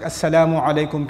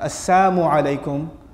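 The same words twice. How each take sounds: First: The l sound in salamu is clearly pronounced. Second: The l sound in salamu is left out. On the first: It wishes peace upon the listener. The speaker calls it right. "peace be upon you" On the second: It curses the listener. The speaker calls it wrong. "Is basically a means of cursing someone if you drop the lam altogether"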